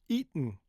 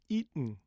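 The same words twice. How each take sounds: The two takes are said the same way.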